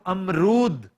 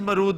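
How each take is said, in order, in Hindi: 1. यह शब्द a स्वर ध्वनि से शुरू होता है। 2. यह शब्द सीधे m ध्वनि से शुरू होता है। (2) "प्लीज मरूद ना कहा करो"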